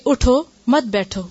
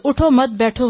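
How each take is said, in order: First: "اٹھو" then a clear break, then "مت بیٹھو" with weight on "مت"; pause after اٹھو. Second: "اٹھو" runs straight into "مت" with no break and the weight on "اٹھو"; wrong reading with no stop after "اٹھو"; no pause after اٹھو. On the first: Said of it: "اٹھو" پر ٹھہرنا لازم ہے". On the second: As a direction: run "اٹھو مت" together as one phrase, then "بیٹھو". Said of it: "اور اگر نہ ٹھہرا جائے". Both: Shown as a demonstration.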